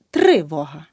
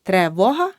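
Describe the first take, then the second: First: Тривога with a clear и after тр; correct vowel demo. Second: Тривога with е after тр; the mistake in тривога, е for и; wrong vowel demo. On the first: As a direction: say тривога as "TRY-voha", first syllable set apart. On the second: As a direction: say тривога wrongly as "tre-voha". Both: Shown as a demonstration. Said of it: "Не".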